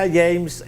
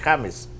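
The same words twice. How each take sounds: First: The name is pronounced the English way. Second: The name is pronounced the Spanish way. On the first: The speaker calls it wrong. "se pronunciará en Estados Unidos así" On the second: The speaker calls it right. "acá vivimos en Colombia y yo me llamo James"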